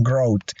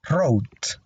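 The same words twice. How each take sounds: First: "growth" with a sounded W-glide before the R; mispronounced W. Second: "Wrote" starting straight on the R; silent W. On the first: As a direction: wrongly voice the silent W in "growth", like a gr- onset. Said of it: "la W no se pronuncia, así que no digan". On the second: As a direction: say "Wrote" with no W sound, only R at the start. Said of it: "simplemente pronunciamos la R aquí al inicio". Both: Shown as a demonstration.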